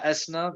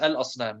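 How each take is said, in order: First: The L of the article is dropped. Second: The L of the article is clearly pronounced. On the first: The speaker calls it wrong. "We don't say" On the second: The speaker calls it right. "So we know it's al asnam"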